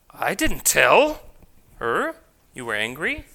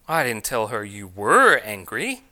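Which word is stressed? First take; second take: tell; were. First: The stress falls on the word tell. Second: The stress falls on the word were. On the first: It was implied rather than said outright. "I merely just implied it" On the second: The anger is said to continue now. "I told her you still are angry"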